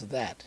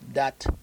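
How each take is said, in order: First: The word begins with a th sound. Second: The word begins with a d sound. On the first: The speaker uses the standard English form. "and then it becomes that" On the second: The speaker uses the Creole form. "dat continues up about two-thirds of the way up"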